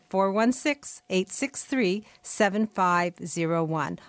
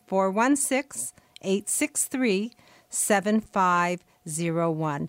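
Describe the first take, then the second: First: The number is said at normal speed. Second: The number is said slowly.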